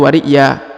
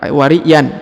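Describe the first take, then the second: First: The word ends with a long vowel. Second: The word ends with an n sound. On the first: The speaker calls it right. "tapi wariya ya" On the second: The speaker calls it wrong. "bukan wariyan"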